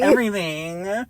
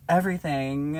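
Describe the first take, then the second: First: Everything said slowly with long pauses trailing; drawn-out everything. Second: Said in the usual way. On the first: Shown as a demonstration. Friend shows how Everything sounds with four periods, drawn out. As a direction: drag out Everything as if with four dots. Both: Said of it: "With four periods at the end".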